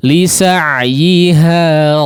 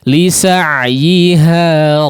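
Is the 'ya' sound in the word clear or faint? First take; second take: clear; clear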